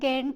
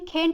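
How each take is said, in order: First: The name begins with a hard g sound. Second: The name begins with a throaty kh sound.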